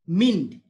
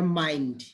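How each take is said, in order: First: मिंड with a short i, a deliberate wrong take; wrong short vowel. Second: माइंड with the long ai vowel; माइंड, ai diphthong; long i mind. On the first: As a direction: say मिंड with short i to show the mistake. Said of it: "आई N का जो है वो आई ई होता है". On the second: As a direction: open माइंड into a clear long ai. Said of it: "इसको हम लोग माइंड". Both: Shown as a demonstration.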